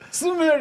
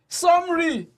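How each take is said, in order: First: The word is said as Sumeri. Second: The word is said as summary. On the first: How she first read it. The speaker calls it wrong. "I just say it" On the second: How other people say it. The speaker calls it right. "people are like"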